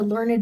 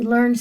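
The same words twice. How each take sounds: First: The ending is an extra syllable. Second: The ending adds no extra syllable. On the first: It is used as an adjective. "An adjective, he was a learned scholar" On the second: It is used as a verb. "He learned something in school"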